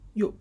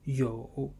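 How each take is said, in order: First: The tone falls sharply from high. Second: The tone dips low, then rises.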